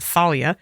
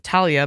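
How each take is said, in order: First: The name begins with a th sound. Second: The name begins with a plain t sound. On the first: This is how the show says it. "in the show they pronounce it Thalia" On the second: This is how the speaker says it. "I pr- always pronounce it Talia"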